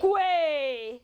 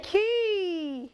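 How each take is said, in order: First: "Kwe" called out loud as "kway"; loud, long "Kwe" with a kw start; wrong pronunciation. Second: "key" called out high as "kee"; loud, long "key" with no w; correct pronunciation. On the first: Teacher calling for children to echo, wrong pronunciation. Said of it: "Never say". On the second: Teacher calling for children to echo, correct pronunciation. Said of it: "You should say". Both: Shown as a demonstration.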